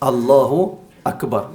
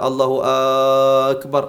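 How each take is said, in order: First: The vowels are kept at normal short length. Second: A vowel is stretched out to double length. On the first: It declares that God is the greatest. The speaker calls it right. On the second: It asks whether God is the greatest. The speaker calls it wrong.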